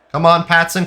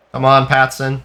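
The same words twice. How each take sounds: First: Higher, more pleading come on; urgent urging. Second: Said in the usual way. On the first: Real, not acted. Urging his striker forward, higher and more desperate. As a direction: push him on harder the second time.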